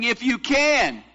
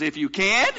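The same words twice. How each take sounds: First: High, slow "If you can" falling on CAN; emphatic falling "can"; doubting statement. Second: "can" lifted into a question; challenging upturn on "can"; incredulous question. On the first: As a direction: draw out "can" and let it drop. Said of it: "He's saying". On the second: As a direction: echo it back, rising on "can". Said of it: "And Jesus goes". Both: Retold or imitated.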